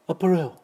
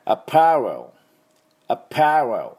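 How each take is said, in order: First: アパレル said in a mock French accent, higher; アパレル with a playful fake French lilt; joking French-style アパレル. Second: アパレル said the English way, stress on パ; アパレル with English stress on the second syllable; English-style アパレル, パ stressed; English apparel. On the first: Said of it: "多分フランス語だと". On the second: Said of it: "英語ではですね". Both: Shown as a demonstration.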